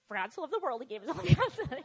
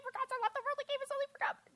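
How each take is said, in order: First: Louder, declaimed, building to the end; child proudly reciting to her aunt, loud; proud loud recital. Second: Put-on much higher, rushed childish recitation; girl rushing the verse for a prize, childish and high; eager child recital. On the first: Retold or imitated. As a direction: belt the verse out proudly. Reciting verse again to aunt. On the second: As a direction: chirp the verse out to win a prize.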